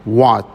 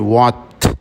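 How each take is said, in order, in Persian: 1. t آخر بدون رها شدن نگه داشته میشه. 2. t آخر کامل ادا میشه. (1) "یا مثلا میگی what" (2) "نمیگی what ت رو شما"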